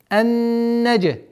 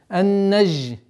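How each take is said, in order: First: The consonant is a hard, explosive 'j' sound. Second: The consonant is a soft, buzzing 'zh' sound. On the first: The speaker calls it right. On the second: The speaker calls it wrong.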